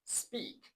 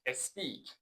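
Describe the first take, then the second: First: The word starts directly with the s sound. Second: An extra vowel is added before the s. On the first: The speaker calls it right. "ولی در انگلیسی اینطوری نیستش" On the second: The speaker calls it wrong.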